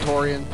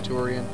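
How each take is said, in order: First: The first syllable sounds like 'tor'. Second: The first syllable sounds like 'toor'. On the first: This is the speaker's own way of saying it. "I call it Torian" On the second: This is how other people say it. "People call it Turian"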